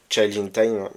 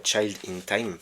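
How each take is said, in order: First: English title in a French accent, louder; French speaker's quick, loud first go at the English. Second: Slower repeat in a French accent; French speaker carefully redoing the English title. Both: Real, not acted. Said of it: "pardon pour mon accent".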